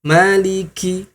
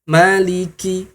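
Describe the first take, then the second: Both takes have the same delivery.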